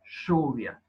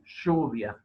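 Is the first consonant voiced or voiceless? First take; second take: voiceless; voiceless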